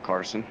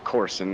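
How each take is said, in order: First: The first vowel sounds like 'ar'. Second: The first vowel sounds like 'or'. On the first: The speaker calls it wrong. "not Carson" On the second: The speaker calls it right. "it's Corson, not Carson. My my apologies"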